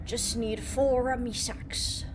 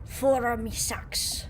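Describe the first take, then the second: First: Slow pirate voice; pirate accent. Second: Put-on pirate accent. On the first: Pretend. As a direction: growl it like a sailor. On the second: Pirate talk, slow.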